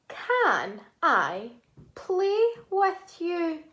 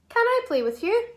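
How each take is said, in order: First: It is said at normal speed. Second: It is said quickly.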